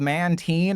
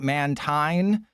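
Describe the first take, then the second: First: The last syllable sounds like 'teen'. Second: The last syllable sounds like 'tine'. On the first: The speaker calls it right. "it's like marine" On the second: The speaker calls it wrong. "A tine is what is on your fork"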